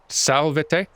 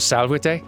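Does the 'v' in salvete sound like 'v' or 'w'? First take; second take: v; w. First: The v is said as a plain v sound. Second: The v is said like a w sound. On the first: The speaker calls it wrong. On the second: The speaker calls it right.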